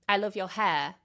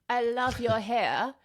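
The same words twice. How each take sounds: First: It is said in a modern, less posh accent. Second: It is said in an old-fashioned, very posh accent. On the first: The speaker sounds like most people today. "what people tend to do nowadays" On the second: The speaker sounds very upper class. "That would be R P"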